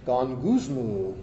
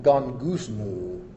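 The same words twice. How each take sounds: First: Gongusmu said slowly in a low murmur; low mumbled Greek word. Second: Gongusmu said slow and low, drawn out; low mumbled Greek word. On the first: Preacher demonstrating Gongusmu, low slow murmur. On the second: Preacher showing the Greek word gongusmu, said slow and low. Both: Shown as a demonstration. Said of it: "You have to say it in a low tone".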